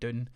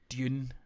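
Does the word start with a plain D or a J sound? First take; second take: D sound; J sound. First: It is said the American way, plain D. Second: It is said with a J-like start.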